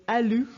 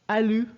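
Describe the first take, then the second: No difference in how they are said.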